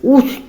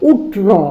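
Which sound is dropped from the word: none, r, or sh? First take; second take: r; sh. First: The r sound after t is dropped. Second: The sh sound before t is dropped. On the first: "একবার রটা ভুল করে" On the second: "মানে উষ্ট্র বলতে চাচ্ছে"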